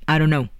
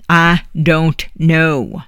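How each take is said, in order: First: Said in the usual way. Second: Each word slow and louder, I don't know; exasperated final answer. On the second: Acted. Old woman tired of the girl's questions, slow and louder I don't know. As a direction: drag out I don't know, louder, losing patience.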